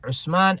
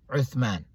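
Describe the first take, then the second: First: The middle consonant is an 's' sound. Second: The middle consonant is a 'th' sound. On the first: "for the one who maybe cannot pronounce the th" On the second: "The proper way is Uthman"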